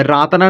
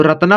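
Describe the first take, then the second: First: रातना with a drawn-out 'aa' up front; wrong long vowel. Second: रत्ना with a short first vowel; correct short vowel. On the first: Teacher showing the misreading to avoid, long-vowel mispronunciation. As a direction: stretch the first vowel of रातना. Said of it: "नहीं होता है ना". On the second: Teacher giving children the correct word, short-vowel pronunciation. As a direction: say रत्ना with a brief opening 'ra'. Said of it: "रातना नहीं होता है ना". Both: Shown as a demonstration.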